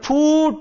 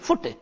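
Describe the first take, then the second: First: The vowel is a long oo sound. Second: The vowel is a short oo sound. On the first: The speaker calls it wrong. "कई बच्चे इसका उच्चारण करते हैं फूट, ... है गलत" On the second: The speaker calls it right. "इसको बोलेंगे फुट"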